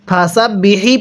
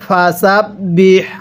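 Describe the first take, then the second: First: The word ends with an added 'i' vowel. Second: The word ends on the 'h' sound. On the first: The speaker calls it wrong. "ফাসাব বিহি পড়বেন না" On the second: The speaker calls it right. "পড়ুন ফাসাব বিহ"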